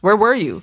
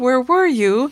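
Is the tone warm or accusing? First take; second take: accusing; warm. First: It sounds suspicious and accusing. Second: It sounds warm and friendly.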